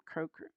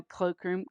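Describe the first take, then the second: First: "croak room" with an R after the C. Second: "cloakroom" with an L after the C. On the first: Host explains the pun, quiet "croak room" with an R. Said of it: "You know, cloakroom". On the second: Host explains the pun, "cloakroom" with an L. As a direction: say "cloakroom" with a clear L sound. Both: Shown as a demonstration.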